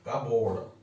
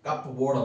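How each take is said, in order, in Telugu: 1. p ధ్వని సైలెంట్గా ఉంటుంది. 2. p ధ్వని పలుకుతుంది. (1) "పీ సైలెంట్" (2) "ఇక్కడ కప్ బోర్డ్ అనం"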